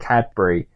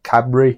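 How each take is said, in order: First: The D sound is clearly pronounced. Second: The D sound is barely pronounced. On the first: "most everyone else says the D in it" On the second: "the Brummie's like"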